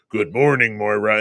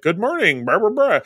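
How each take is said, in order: First: A touch lower, calm Charles voice; low, even greeting, lightly voiced; imitating Charles. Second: A touch higher, lightly voiced Moira; breezy nurse-like greeting, barely acted; imitating Moira. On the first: Charles answering Moira from the bed, calm and a little lower. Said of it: "you hear Charles' voice go". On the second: Moira greeting the patient, lightly voiced and a bit higher. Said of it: "she's just like".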